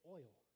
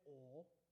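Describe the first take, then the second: First: It is said with a Midwestern 'oil' vowel. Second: It is said with a Southern-style 'ol' vowel.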